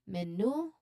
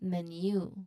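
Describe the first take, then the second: First: The second syllable does not sound like 'you'. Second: The second syllable sounds like the word 'you'. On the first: The speaker calls it wrong. "it's not menu" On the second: The speaker calls it right. "but menu"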